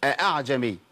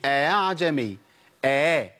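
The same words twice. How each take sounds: First: أعجمي begun a-'a, with a hard second catch; two full hamzas. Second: أعجمي opened as a smooth gliding a-a with no second catch; softened second hamza. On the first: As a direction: wrongly articulate both glottal stops starting أعجمي. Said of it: "ما أقولش أعجمي". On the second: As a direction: ease the second hamza of أعجمي toward an alif. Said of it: "بيتعامل معاها بتسهيل الهمزة". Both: Shown as a demonstration.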